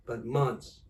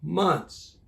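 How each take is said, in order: First: Said in the usual way. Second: Months punched louder and higher to open the list; emphatic months. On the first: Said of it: "Months, not hours, not days". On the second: Real, not acted. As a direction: hit Months hard. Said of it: "very, very, very long time".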